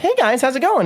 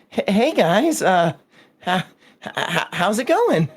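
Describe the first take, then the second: First: It is said in a plain, casual way. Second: It is said nervously, stammering and hesitant.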